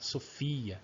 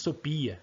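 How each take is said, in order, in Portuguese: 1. A consoante do meio é som de F. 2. A consoante do meio é som de P. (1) "o pH tem som de F" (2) "O som de Sopia"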